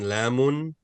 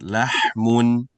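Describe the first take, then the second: First: No h sound is heard before the m. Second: A breathy h sound is heard before the m. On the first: The speaker calls it wrong. "You're skipping the ha. You're saying lamun" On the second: The speaker calls it right. "Very good"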